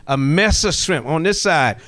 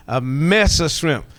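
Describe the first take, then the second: First: "A mess of shrimp" country-style, "mess" a bit louder; Geechee country "mess of shrimp". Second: "A mess of shrimp" slow and drawn out, "mess" leaning; slow country "mess of shrimp". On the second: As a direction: savor "A mess of shrimp" the Geechee way. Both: Shown as a demonstration. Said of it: "put a little country in it".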